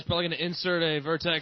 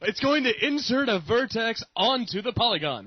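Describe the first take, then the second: First: It is said in a flat, casual tone. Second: It is said in an excited tone.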